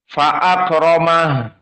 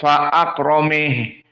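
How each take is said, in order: First: The final vowel is a plain open 'a'. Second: The final vowel is tilted toward 'e'. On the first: The speaker calls it right. "Misalnya fa'akramah" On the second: The speaker calls it wrong. "tidak menjadi fa'akrameh"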